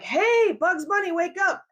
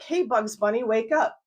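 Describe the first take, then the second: First: It is said loudly and forcefully. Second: It is said gently and softly.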